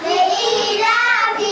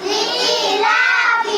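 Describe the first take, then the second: No difference in how they are said.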